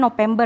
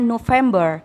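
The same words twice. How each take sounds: First: The word is said with Indonesian pronunciation. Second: The word is said with English pronunciation. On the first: "Kalau bahasa Indonesianya kan November ya" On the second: "bahasa Inggrisnya November"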